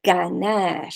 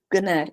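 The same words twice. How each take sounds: First: "Ganar" with a full, open a in both syllables; correct Spanish vowel. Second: "ganar" with the first vowel swallowed to a weak uh, English-sounding; wrong English-style vowel. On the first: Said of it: "It's ga". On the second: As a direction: mimic an English speaker mumbling "ganar", vowel reduced. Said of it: "And don't make it g". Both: Shown as a demonstration.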